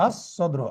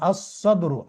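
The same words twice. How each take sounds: First: আস সদরু again, much softer, lam silent, doubled স; repeated sun letter demo. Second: আস সদরু with the lam silent, doubled স; sun letter demo. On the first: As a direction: softly repeat আস সদরু so the alif joins straight to স. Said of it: "আলিফ সরাসরি সদকে যে ধরবে". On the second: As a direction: teach আস সদরু as ass-sadru, no L sound, leaning on the doubled স. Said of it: "সদের পূর্বে লাম উচ্চারিত হবে না". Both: Shown as a demonstration.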